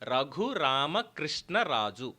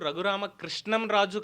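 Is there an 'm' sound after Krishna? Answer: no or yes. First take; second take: no; yes. First: No 'm' sound follows Krishna before Raju. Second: An 'm' sound follows Krishna before Raju. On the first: It is the person's actual name. The speaker calls it right. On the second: It names a different person. The speaker calls it wrong. "ఆయన పేరు రఘురామ కృష్ణం రాజు కాదు"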